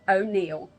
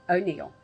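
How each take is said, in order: Both takes have the same delivery.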